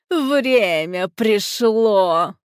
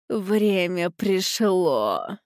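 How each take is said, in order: First: Louder gleeful repeat; triumphant, savoring. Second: Savoring words. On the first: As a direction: relish each word in triumph. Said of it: "наслаждаясь звуками чудесных слов". (торжествующе, смакуя слова) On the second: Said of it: "повторила она несколько раз, наслаждаясь". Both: A narrator's reading.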